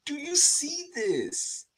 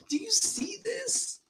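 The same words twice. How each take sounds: First: High, slow, spoken aloud in wonder; voiced amazement. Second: High, slow whisper of amazement; awed whisper. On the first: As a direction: ask it aloud, still amazed. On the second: Retold or imitated. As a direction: breathe the words as if in awe. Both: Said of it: "I'm like".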